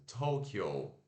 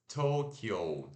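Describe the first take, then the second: Both takes have the same delivery.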